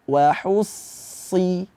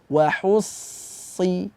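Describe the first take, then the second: First: The lips are spread as in a smile. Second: The same.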